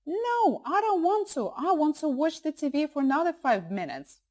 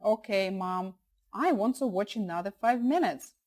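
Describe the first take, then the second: First: Put-on high-pitched protesting child; fighting voice. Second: Said in the usual way. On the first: Shown as a demonstration. Son refusing to switch off cartoons, fighting voice. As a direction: whine and refuse like a kid at bedtime. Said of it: "they will probably be using their fighting voice". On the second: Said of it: "Try using your talking voice instead".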